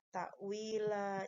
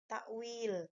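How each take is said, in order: First: The word ends with a lengthened vowel. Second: The word stops on the final consonant. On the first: The speaker calls it right. "Ta'wila cara bacanya, bukan takwil" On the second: The speaker calls it wrong. "ada beberapa yang membacanya itu takwil. Itu salah"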